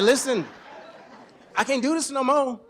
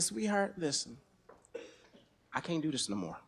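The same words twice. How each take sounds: First: Raised, firm declaration to his wife. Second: Soft, low and tired to his wife; soft resignation. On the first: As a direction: lay it down firmly and louder. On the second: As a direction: say it softly, lower and quieter. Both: Retold or imitated. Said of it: "I said".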